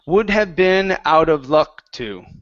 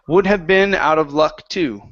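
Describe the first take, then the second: First: The voice falls at the end. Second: The voice rises at the end. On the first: The speaker calls it wrong. "right now you're saying" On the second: The speaker calls it right. "So it's up just a little bit"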